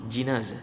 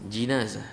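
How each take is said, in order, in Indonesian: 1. Vokal pertama adalah bunyi i. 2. Vokal pertama adalah bunyi i.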